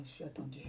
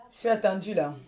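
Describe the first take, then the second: First: Said in the usual way. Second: Louder insist. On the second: Real, not acted. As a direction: stress that she is expected. (Je suis attendue, plus fort et plus aigu, insistant)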